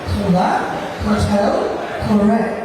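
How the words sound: The k sounds are strongly aspirated, like kh. "ব্রিটিশদের ... এরকম বাংলা বলে"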